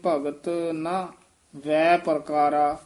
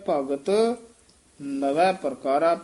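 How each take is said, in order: First: The middle word is broken into two parts. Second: The middle word is said as one unit. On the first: The speaker calls it wrong. "ਇਉਂ ਨਹੀਂ" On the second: The speaker calls it right. "ਮੁੱਖ ਪਾਠ ਇਹੀ ਹੈ"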